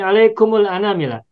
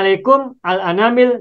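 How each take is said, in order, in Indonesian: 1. Kedua kata disambung dengan bunyi u setelah mim. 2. Kedua kata diucapkan terpisah, mim tanpa vokal.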